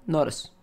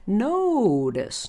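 First: The oh vowel is short and tense. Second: The oh vowel is long and relaxed. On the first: The speaker calls it wrong. "not notice" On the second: The speaker calls it right.

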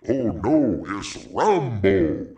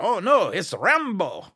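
First: It is said in a put-on cartoon voice. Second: It is said in his normal voice.

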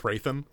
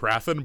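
First: The name is said squeezed together, Hraithen. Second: The name is said as spelled, Ha-ra-then. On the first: This is how the audiobook narrator says it. "the audiobook guy says Hraithen" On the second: This is how the name reads on the page. "reading his name now, like, it's definitely Harathen"

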